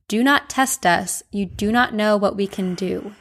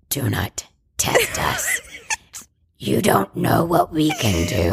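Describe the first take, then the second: First: It is said in a normal voice. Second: It is said in a creepy voice.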